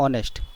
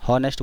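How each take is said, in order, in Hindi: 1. इस शब्द की शुरुआत सीधे एक स्वर से होती है। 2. इस शब्द की शुरुआत "h" की आवाज़ से होती है। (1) "इसको बोला जाता है ऑनेस्ट, तो ये ओ से स्टार्ट हो रहा है" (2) "इसको कई लोग हॉनेस्ट बोलते हैं"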